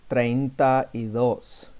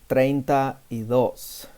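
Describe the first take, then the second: The two takes are said the same way.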